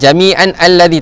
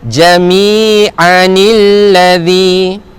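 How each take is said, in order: First: The words join with no vowel inserted between. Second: An 'i' vowel links the two words. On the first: The speaker calls it wrong. "tak boleh" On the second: The speaker calls it right. "Jadi kita baca jami'anil ladzi"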